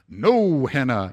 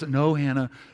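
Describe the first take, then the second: First: The voice sounds stern and firm. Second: The voice sounds mild and not very firm.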